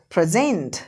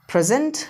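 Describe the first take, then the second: First: present as pre-ZENT, lower and falling; second-syllable stress. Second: present as PREZ-unt, ending up; weak second syllable in present; first-syllable stress. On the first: Teacher drills word pairs with students, present stressed as pre-ZENT. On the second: Teacher drills word pairs with students, present stressed as PREZ-unt. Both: Shown as a demonstration. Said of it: "सारे के सारे words एक बार पढ़ लो".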